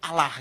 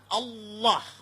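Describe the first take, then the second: First: It is said lightly, in the local Indonesian way. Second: It is said heavily, with Arabic-influenced pronunciation.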